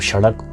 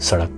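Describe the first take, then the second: First: The word begins with an 'sh' sound. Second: The word begins with a plain 's' sound.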